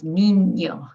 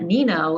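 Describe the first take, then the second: First: "niño" with the ñ as a ny glide, slow and clear; ny sound for ñ. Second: "Nino" with a plain n in the middle, no ny glide; plain English n. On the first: Teacher giving learners the right way, ñ as ny. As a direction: glide through the ñ in "niño" like canyon. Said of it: "it's like an N Y sound". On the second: Teacher showing learners the wrong way, plain n. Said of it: "So it's not Nino". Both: Shown as a demonstration.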